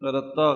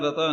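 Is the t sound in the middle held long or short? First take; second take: held long; short. First: The middle t sound is doubled and held tight. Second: The middle t sound is short and light. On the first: The speaker calls it right. "ਕਸ ਕੇ ਹੀ ਬੋਲਣਾ, ... ਰੱਤਾ ਕਹਿਣਾ" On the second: The speaker calls it wrong. "ਰਤਾ ਨਹੀਂ ਕਹਿਣਾ"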